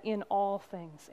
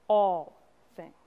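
First: Said in the usual way. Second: "All" punched loud, a gap before "things"; emphatic ALL. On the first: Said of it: "she would say". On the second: Retold or imitated. Congregant quoting her life verse, "All" weighted and set apart. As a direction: land hard on "All", then let "things" drop away. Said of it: "if Dot were saying this to you".

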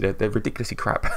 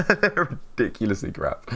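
First: Said in the usual way. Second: Laughing through the words. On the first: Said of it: "repeat with laugh". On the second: Real, not acted. Streamer laughing about his own first videos, amused. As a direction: chuckle as you say it. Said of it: "said laughing".

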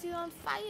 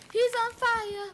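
First: Said in the usual way. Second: Much higher and louder, thrilled; excited shout. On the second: Real, not acted. Gamer shouting to viewers about the burning zombie, excited yell.

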